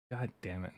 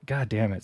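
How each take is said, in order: First: Under-breath curse. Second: Said in the usual way. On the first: Retold or imitated. Patient finally solving it, quietly cursing under breath. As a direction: mutter it almost to yourself.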